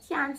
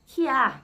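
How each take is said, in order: First: The word ends with a clear t sound. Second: The word ends in an open vowel, no t. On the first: "Not can't, you know, C A N T" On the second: "Kya, C Y A H"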